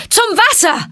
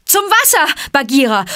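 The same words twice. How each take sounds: First: High, loud final shout; loud call. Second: High, loud shout across the fight; loud call. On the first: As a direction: yell it once more. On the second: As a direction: yell the way to the water. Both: A narrator's reading. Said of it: "rief er mit lauter Stimme".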